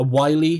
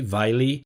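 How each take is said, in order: First: It is said in a plain English accent. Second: It is said in a mock German accent.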